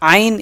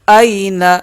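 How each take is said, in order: First: It begins with a throaty ain sound. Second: It begins with a light glottal stop. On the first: The speaker calls it wrong. "हमज़ा की जगह आइन आइन आइन ये अदा ना कीजिएगा" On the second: The speaker calls it right. "ये हमज़ा है, आइन नहीं है"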